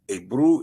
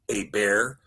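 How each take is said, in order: First: The name ends with an 'oo' vowel sound. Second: The name ends with an 'er' sound. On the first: The speaker calls it right. "Ebru is the correct way to pronounce it" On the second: The speaker calls it wrong. "not Eber"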